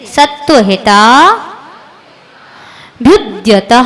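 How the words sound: It is split into two parts with a break.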